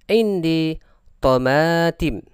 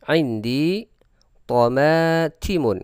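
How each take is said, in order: First: The last word stops on a bare final consonant. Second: The last word ends with a full '-un' ending.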